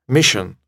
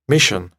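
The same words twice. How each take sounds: The two takes are said the same way.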